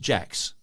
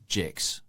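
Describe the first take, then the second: First: The name is said in a general accent. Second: The name is said in a New Zealand accent.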